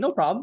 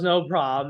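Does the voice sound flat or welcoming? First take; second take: welcoming; flat. First: It sounds upbeat, excited and welcoming. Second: It sounds flat and unenthusiastic. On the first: The refusal is accepted gladly. The speaker calls it right. "that's how you say it" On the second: The refusal is accepted grudgingly. The speaker calls it wrong. "you see how that's different"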